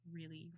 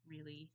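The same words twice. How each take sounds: The two takes are said the same way.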